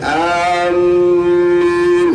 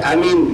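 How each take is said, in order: First: The m sound is doubled and held. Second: Both vowels in the word are kept short. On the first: The speaker calls it wrong. "ditasydidkan amin, nah itu yang tidak boleh" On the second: The speaker calls it right. "pendek amin boleh"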